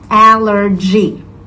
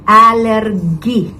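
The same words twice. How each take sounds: First: The middle consonant is a 'j' sound. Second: The middle consonant is not a 'j' sound. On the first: The speaker calls it right. "proper pronunciation of the word is allergy. G. So it's like uh, the same sound like when you say jogging" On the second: The speaker calls it wrong. "most people in Japan would tend to say allergy"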